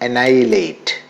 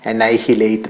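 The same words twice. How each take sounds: First: The h sound is silent. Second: The h sound is pronounced. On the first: The speaker calls it right. "H silent ആണ്" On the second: The speaker calls it wrong. "തെറ്റായിട്ടാണ് അത് pronounce ചെയ്യുന്നത്"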